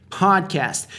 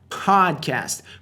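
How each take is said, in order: Both takes have the same delivery.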